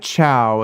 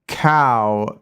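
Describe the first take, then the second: First: The first sound is a clear ch. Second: The first sound is a clear k. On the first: "it's not like chow" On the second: "it's not cow"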